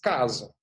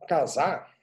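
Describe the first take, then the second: First: The stress is on the first syllable. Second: The stress is on the last syllable. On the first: It refers to a home. "o C A é a tônica" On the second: It refers to getting married. "o S A é a tônica"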